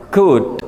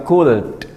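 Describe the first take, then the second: First: "good" as "kood", straight from vowel to final d; silent L. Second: "could" with the L pronounced, like "koold"; mistakenly sounded L. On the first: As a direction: model "good" with no L at all. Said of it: "L-nya silent". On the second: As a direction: show the wrong "could", L fully voiced. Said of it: "Bukan could". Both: Shown as a demonstration.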